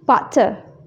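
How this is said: The middle t is a crisp t sound. "dalam British, mereka menyebut butter"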